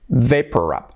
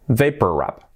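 The two takes are said the same way.

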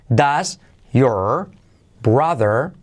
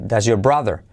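First: Each word is said separately with clear breaks. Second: The words run together and the R in your drops. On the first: The speaker calls it wrong. "Por separado así" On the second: The speaker calls it right. "Se hace así"

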